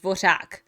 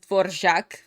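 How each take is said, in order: First: The middle consonant is the Czech trilled ř sound. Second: The middle consonant is a separate r then zh. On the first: "That's how you are supposed to pronounce it" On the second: "They are pronouncing it as Dvoržák because that's the closest you can go to R in English"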